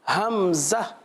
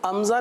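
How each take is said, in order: First: The word begins with an h sound. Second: The word begins directly with a vowel. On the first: The speaker calls it right. "बल्कि हमज़ा, इस तरह पढ़ेंगे" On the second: The speaker calls it wrong. "अमज़ा नहीं पढ़ेंगे"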